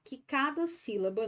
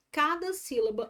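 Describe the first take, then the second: First: Said in the usual way. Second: Cada hit higher and louder; stress on Cada. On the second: Shown as a demonstration. Teacher restating the rule to students, stress on Cada. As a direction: punch the word Cada. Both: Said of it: "Cada sílaba, obrigatoriamente".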